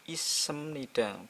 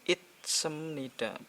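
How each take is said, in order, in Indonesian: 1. Tidak ada konsonan yang mengakhiri suku kata pertama. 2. Bunyi t mengakhiri suku kata pertama. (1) "Ini jadinya isemnida" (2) "bukan itsemnida"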